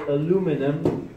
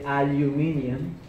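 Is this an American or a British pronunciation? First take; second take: American; British. First: It is said in an American accent. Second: It is said in a British accent.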